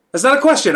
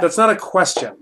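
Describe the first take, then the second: First: That's not a question, said much higher and louder; louder insistent. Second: Said in the usual way. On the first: Real, not acted. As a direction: raise the pitch and volume on "That's not a question". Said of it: "repeated louder".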